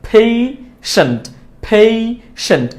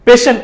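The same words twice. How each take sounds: First: Slow, split পেশেন্ট as "phei... shent"; correct pronunciation. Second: পেশেন্ট as "pe-sent", no glide; wrong pronunciation. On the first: Teacher drilling learners, slow পেশেন্ট with ei. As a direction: stretch ei in পেশেন্ট. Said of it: "সঠিক উচ্চারণটা". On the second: Teacher rejecting the mistake, পেশেন্ট with plain e. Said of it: "না". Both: Shown as a demonstration.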